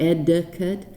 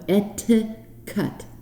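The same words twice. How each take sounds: First: The middle consonant is a soft D sound. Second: The middle consonant is a crisp T sound. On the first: The speaker calls it wrong. "they use a D like delta sound, like" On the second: The speaker calls it right. "et with a T, T like tango"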